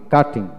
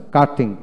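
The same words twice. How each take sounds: The two takes are said the same way.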